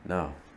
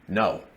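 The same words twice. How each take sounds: First: The word is said soft and yielding. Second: The word is said hard and firm. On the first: "like wood" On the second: "like stone"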